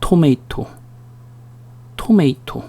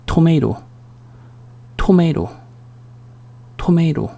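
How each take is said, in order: First: "토메이토" with "may" in the middle, clear t; softer "토메이토", both t sounds crisp; "ei" pronunciation. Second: "토메이로" with the second t softened to a flap; soft "토메이로", middle T tapped like an r; American flapped T. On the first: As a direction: model "토메이토" softly as "to-MAY-to". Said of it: "어떻게 발음해?". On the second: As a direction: say "토메이로" softly, American "to-MAY-ro". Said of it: "좀 살짝 죽여주죠". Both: Shown as a demonstration.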